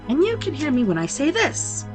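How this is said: It is spoken in a very deep voice. "in a sepulchrally deep voice"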